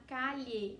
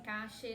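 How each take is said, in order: First: The double L sounds like a 'ly' sound. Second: The double L sounds like an 'sh' sound. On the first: "Você fala como se fosse o L H" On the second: "na Argentina, cache, né? Com o som de xota"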